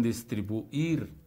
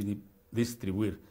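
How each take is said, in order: First: "distribuir" lento, separando la u de la i; diptongo roto. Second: "distribuir" con ui unido en una sílaba; diptongo correcto. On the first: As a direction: alarga "distribu-ir" rompiendo el diptongo. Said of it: "como rompiendo el diptongo". ("distribuir" dicho despacio, como lo dicen muchos, rompiendo el diptongo) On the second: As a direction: di que "distribuir" juntando la u y la i. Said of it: "se pronuncia así, diptongando la U con la I". ("distribuir" pronunciado con diptongo, sin romperlo) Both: Shown as a demonstration.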